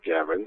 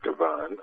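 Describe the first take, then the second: First: The name is said in an Irish-Canadian style. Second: The name is said in a French-Canadian style. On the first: The speaker calls it right. "the Irish-Canadian pronunciation" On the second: The speaker calls it wrong. "I was going with the French-Canadian"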